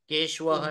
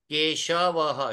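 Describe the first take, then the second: First: The 'sh' sound is not pronounced fully. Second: The 'sh' sound is pronounced fully. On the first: The speaker calls it wrong. "नहीं है" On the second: The speaker calls it right. "श पूरा है"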